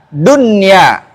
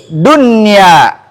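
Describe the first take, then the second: Both takes have the same delivery.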